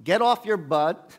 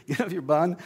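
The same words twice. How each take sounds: First: "Get off your butt" barked loud and slow; scolding shout. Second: Laughing correction. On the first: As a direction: push him to move, loudly. God scolding Moses in retelling. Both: Retold or imitated.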